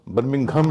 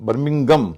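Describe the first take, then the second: The two takes are said the same way.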